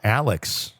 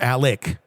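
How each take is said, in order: First: The name ends with a ks sound. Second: The name ends with a plain k sound. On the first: The name is read as it is spelled. "it's spelled Alex" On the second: The name is said the way its owner says it. "they pronounce it Alec"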